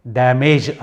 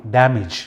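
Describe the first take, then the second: First: డ్యామేజ్ said with a plain 'ఏ' sound, shown as the wrong way; the rejected 'డ్యామేజ్' with an 'ఏ' vowel; wrong pronunciation. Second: డ్యామేజ్ with the final vowel said as 'ఇ'; 'డ్యామేజ్' ending in a short 'ఇ', the right way; correct pronunciation. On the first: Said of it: "డ్యామేజ్ అనం". ('డ్యామేజ్' తప్పు ఉచ్చారణ, 'ఏ' శబ్దంతో) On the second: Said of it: "ఐగా పలుకుతారనమాట". ('డ్యామేజ్' సరైన ఉచ్చారణ, చివర 'ఇ' శబ్దం) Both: Shown as a demonstration.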